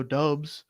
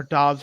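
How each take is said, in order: First: Doubs said with a long O, like "dobes"; alternative pronunciation. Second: Dobbs said with a short O, like "dahbs"; alternative pronunciation. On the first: Podcaster unsure of a rookie's name, long-O pronunciation. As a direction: say Doubs to rhyme with "robes". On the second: Podcaster offering another way to say the rookie's name, short-O pronunciation. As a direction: say Dobbs to rhyme with "jobs". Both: Real, not acted. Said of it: "however you wanna pronounce it".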